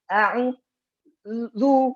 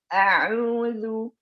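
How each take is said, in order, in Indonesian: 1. Bibir membulat sebelum konsonan terbentuk. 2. Bibir membulat setelah konsonan terbentuk. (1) "duluan moncong baru keluarkan. Ah, itu salah" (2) "Taruh dulu di makhrajnya, baru moncongkan"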